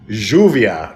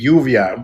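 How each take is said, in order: First: It is said with an Argentine accent. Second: It is said with a Mexican accent.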